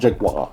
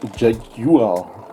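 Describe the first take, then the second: First: The word is said in an American way. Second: The word is said in a non-American way. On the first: The speaker calls it wrong. "so not Jaguar, like the Americans do" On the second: The speaker calls it right. "really have to pronounce it Jaguar"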